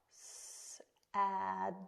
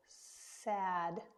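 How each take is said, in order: First: "Sad" broken into separate sounds, s, a, d; sounding out. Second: "Sad" blended slowly into one word. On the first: Teacher helping kids read, "Sad" split sound by sound. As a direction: sound out "Sad" one letter sound at a time. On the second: Teacher helping kids read, "Sad" blended into one slow word. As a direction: join the sounds of "Sad", holding them a little. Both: Shown as a demonstration. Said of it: "See if you can sound that out".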